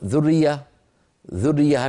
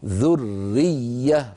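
First: ذرية rushed as if with a single r; snatch ذرية quickly, swallowing one r; snatched wrong form. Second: Very slow ذرية with the doubled r and doubled y clear; ذرية said very slowly, every letter given its right; both doubled letters shown. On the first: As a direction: careless clipped ذرية. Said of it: "نخطفها". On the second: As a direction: give each doubled letter of ذرية its full length. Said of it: "لابد من بيان الرائين". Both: Shown as a demonstration.

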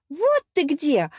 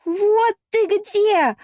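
First: Higher, friendly call; оклик. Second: High, loud, drawn-out jealous shriek; девичий вопль. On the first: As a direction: hail a friend just found. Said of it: "окликнула меня Ариана". (радостный оклик) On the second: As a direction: shriek it in gloating fury at a cheater caught. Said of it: "оглушил меня девичий вопль". (яростный ревнивый вопль) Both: A narrator's reading.

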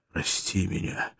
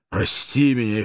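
First: Whisper, slow, pleading; whispered plea. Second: Said in the usual way. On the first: Acted. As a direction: beg forgiveness in a whisper. German begs forgiveness.

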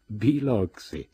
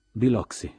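First: Slow, drawn-out astonished cry of the name, louder and higher; stunned exclamation. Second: One dry clipped word, louder and higher, falling; curt reply. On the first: Tom and the narrator stunned at the lie, exclaiming. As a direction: let the name burst out in disbelief. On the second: Tom answering Daisy, curt and dry. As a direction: snap the name back, short and final. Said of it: "rispose lui secco". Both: A narrator's reading.

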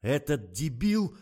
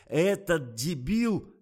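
First: High, loud, slow howl of fury; outraged yell. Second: Louder, slower howl, falling at the end; outraged yell. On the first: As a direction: yell it drawn out, rising at the end. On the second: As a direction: stretch the insult out in fury. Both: A narrator's reading. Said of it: "завопил Николай".

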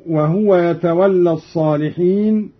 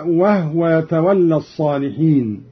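First: Said in the usual way. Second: "وهو" as wahwa, no vowel on the h; still ha. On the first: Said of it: "بإسكان الهاء". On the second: Shown as a demonstration. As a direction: recite "وهو" in two syllables, wah-wa. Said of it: "بإسكان الهاء هكذا".

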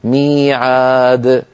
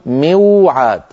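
First: ميعاد stretched very slowly, the ya long. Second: موعاد said with the w after mu. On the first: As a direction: draw out ميعاد for the class. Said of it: "يقولون ماذا؟". (ميعاد ببطء شديد) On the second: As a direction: sound out the unused form موعاد. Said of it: "نقول موعاد". (نطق موعاد بالواو) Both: Shown as a demonstration.

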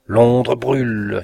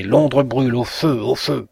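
First: Slow shouted cry of a madman. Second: Raised, loud raving cry; frantic shout. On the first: Raving preacher calls out to the asylum. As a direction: bellow it with full lungs. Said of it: "s'écriait-il de toute la force de ses poumons". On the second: Mad preacher screams fire to his neighbours. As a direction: yell it like a madman. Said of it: "éclatante que fût la voix de ce fou". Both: A narrator's reading.

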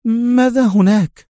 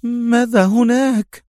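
First: Higher woman's voice, a touch of worry; ask, suddenly uneasy; mildly anxious question; worried. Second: Slow, higher woman's voice, anxious; slower, more uneasy question; more worried. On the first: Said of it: "لتسأله في قلق". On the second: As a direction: press him, worry growing. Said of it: "بمزيد من القلق". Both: A narrator's reading.

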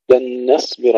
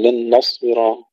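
First: لن نصبر with a light n before heavy ص; thin nun. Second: لن نصبر with the n thickened; wrongly heavy nun. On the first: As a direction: recite نصبر keeping the ن thin. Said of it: "لاحظوا ترقيق النون". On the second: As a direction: mistaken recitation, dark "no" for ن in نصبر. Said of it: "ولا نقول". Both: Shown as a demonstration.

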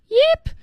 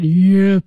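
First: High-pitched little "yip"; the usual squeaky "yip", pitched high. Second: Deep, low "yip"; "yip" in a big creature's low voice; low-pitched yip. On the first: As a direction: say "yip" up high, like a small creature. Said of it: "So instead of yip". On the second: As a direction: drop "yip" down low, with some weight. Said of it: "a sound that is very deep and low". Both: Shown as a demonstration.

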